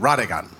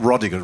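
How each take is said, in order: First: The name is said with a Jamaican vowel. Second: The name is said with a non-Jamaican vowel. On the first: "the Jamaican version is actually Radigan" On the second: "it's not Rodigan"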